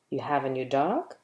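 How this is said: It is said as a question. The speaker is asking whether it is true. "Or you can ask a question with it"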